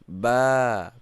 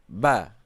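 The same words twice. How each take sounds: First: The vowel is held a little longer. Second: The vowel is short. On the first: "panjang sedikit" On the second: "Kalau tidak ada alif dibaca ba"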